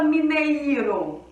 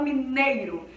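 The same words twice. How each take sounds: First: Mi-ne-i-ro, every vowel full and separate; stressed hiatus. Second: Mineiro with ei as one gliding sound; natural diphthong. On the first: Teacher demoing the wrong way, vowels split. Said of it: "a gente não fala mineiro". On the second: Teacher giving the correct everyday mineiro. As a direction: say mineiro with the i as a light glide. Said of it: "a gente fala mineiro". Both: Shown as a demonstration.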